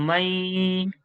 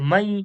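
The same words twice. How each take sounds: First: A nasal hum is held through the nose. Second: It is said without any nasal hum. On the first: The speaker calls it right. "নাকের মধ্যে একালিপ গুন্না ধরে রাখবো" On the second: The speaker calls it wrong. "কোন রকম গুন্না হচ্ছে না"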